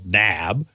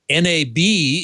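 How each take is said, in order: First: It is said as a single word. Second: Each letter is said separately, one by one. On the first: "it could be called" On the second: "is usually spelled out"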